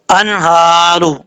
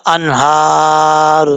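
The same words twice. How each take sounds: First: انہارو with the final را voweled as ru; joined reading. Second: Slow انہار, the final را silent; stopping on the word. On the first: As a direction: read انہارو joined, ending on a clear ru. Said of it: "ملا کے پڑھنا چاہیں گے تو را کے اوپر پیش ہے". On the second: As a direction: stop on انہار with no vowel after را. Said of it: "جب سٹاپ کریں گے تو را ساکن ہو جائے گا". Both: Shown as a demonstration.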